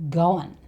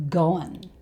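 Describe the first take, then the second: The two takes are said the same way.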